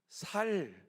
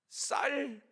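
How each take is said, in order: First: The first consonant is plain. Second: The first consonant is tense. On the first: The speaker calls it wrong. "살 이렇게 대답을 하는" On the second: The speaker calls it right. "쌀 이렇게 시켜보면"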